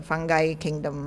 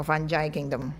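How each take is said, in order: First: Fungi with a hard g before "kingdom"; fungi as fun-guy. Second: Fungi with a soft g before "kingdom"; fungi as fun-jai. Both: Shown as a demonstration. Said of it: "got various pronunciations".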